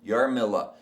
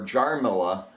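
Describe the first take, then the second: First: The name begins with a Y sound. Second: The name begins with a J sound. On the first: The speaker calls it right. "the J in Czech is pronounced like a Y" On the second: The speaker calls it wrong. "so that people wouldn't call her Jarmila"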